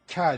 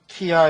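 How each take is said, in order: First: It is said quickly as one merged beat. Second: It is said slowly as two separate beats. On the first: The speaker calls it right. "합쳐가지고 한 박자로 빨리" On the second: The speaker calls it wrong. "얘가 한 박자, 얘가 한 박자, 합은 두 박자"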